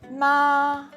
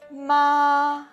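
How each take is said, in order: No difference in how they are said.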